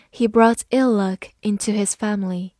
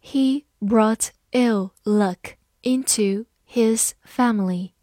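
First: Said in the usual way. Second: Slow, careful word-by-word reading; deliberate model reading. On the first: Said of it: "慢慢来读". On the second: Shown as a demonstration. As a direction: read it slowly for learners. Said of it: "好，慢慢来读".

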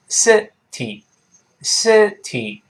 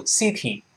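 First: Slow "city", short first vowel, pause, then TEE; "city" in two separated syllables, EE ending; syllable-by-syllable model. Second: "city" with a long EE in the first syllable; "city" said SEE-tee; mispronounced city. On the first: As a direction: split "city" into SIH and TEE. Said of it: "这么一个声音". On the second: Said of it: "不要读city". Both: Shown as a demonstration.

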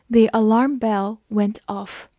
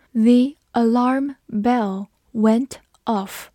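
First: Said in the usual way. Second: Word by word, very slow, with gaps; slow read-along. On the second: Shown as a demonstration. Teacher modelling the alarm bell sentence, slowly. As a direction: stretch it out for learners to follow.

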